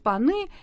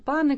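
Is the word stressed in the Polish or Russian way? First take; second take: Russian; Polish. First: The word carries the usual Russian stress. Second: The word carries the Polish-style stress.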